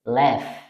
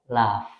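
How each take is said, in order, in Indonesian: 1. Ini diucapkan dengan aksen non-British. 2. Ini diucapkan dengan aksen British. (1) "ini bacaannya adalah left" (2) "kalau kita menggunakan aksen British"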